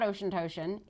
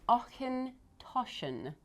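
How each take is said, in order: First: The first part sounds like the word 'ocean'. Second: The first part has a throaty 'ch' sound. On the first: The speaker calls it wrong. "So it is not Ocean Toshan" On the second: The speaker calls it right. "It is Ochen Toshan"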